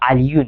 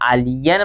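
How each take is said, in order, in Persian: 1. کلمه با صدای '-un' تموم میشه. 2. کلمه با صدای '-an' تموم میشه.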